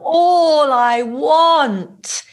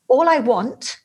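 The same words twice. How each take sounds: First: The vowel in 'all' is long and drawn out. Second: The consonants are short, crisp and clipped. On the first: The speaker expresses feeling. "the emotion is in the all" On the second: The speaker gets the point across. "much more sachlich, much more to the point and direct"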